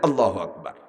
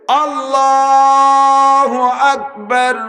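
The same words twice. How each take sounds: First: It is said short and quick. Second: It is said slowly, drawn out.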